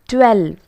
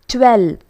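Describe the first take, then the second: The two takes are said the same way.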